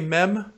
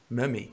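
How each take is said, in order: First: The word is said with English vowels. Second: The word is said with Spanish vowels. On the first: "you know how you say mem in Spanish?" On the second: "I was just speaking a little bit of Spanish"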